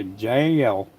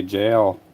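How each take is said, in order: First: "Jail" stretched in a mild imitated country drawl; a hint of Southern country accent on "Jail". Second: Said in the usual way. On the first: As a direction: lightly mimic a toddler's country "Jail". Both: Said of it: "like, with a real country accent".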